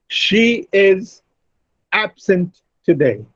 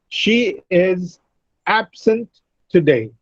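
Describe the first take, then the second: Both takes have the same delivery.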